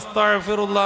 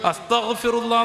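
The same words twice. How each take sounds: First: A consonant is altered to a different sound. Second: The consonants are articulated carefully as in Arabic. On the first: It asks to be buried under soil. The speaker calls it wrong. "പറഞ്ഞ മണ്ണിട്ട് മൂടണേന്നാണ്" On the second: It asks for forgiveness. The speaker calls it right. "അസ്തഗ്ഫിറുല്ലാ എന്ന് പറയണതിന് പകരം"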